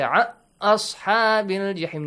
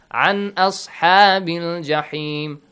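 First: The n sound merges into the following sound. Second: The n sound is pronounced clearly and separately. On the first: The speaker calls it wrong. "You do not say an ashabil jahim" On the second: The speaker calls it right. "Noon must be clearly pronounced as if there is no rule applied"

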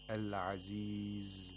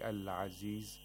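First: The z sound is held a little long. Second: The z sound is cut short. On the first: The speaker calls it right. "we have to hold the zai a little bit" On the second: The speaker calls it wrong. "that's incorrect"

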